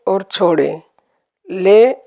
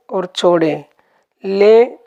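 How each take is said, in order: Both takes have the same delivery.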